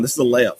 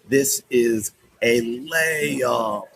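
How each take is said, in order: First: Said in the usual way. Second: Very slow, stretched "layup"; drawn-out emphasis. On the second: Real, not acted. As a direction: stretch out every word, especially LAYUP. Drawn-out emphatic repeat of the line.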